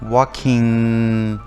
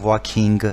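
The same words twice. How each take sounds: First: The ending has no hard g sound. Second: The ending has a hard g sound. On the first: The speaker calls it right. "ing هستش صدای گ نخواهد داشت" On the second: The speaker calls it wrong. "ما نمیگوییم walking"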